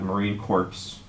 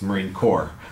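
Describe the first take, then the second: First: The last word ends with sounded p and s. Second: The last word ends without p or s sounds. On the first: It means a dead Marine. The speaker calls it wrong. "it's not Marine Corps. A Marine Corps is a dead Marine" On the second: It names the military branch. The speaker calls it right. "it does have a P in it, but you don't say it that way"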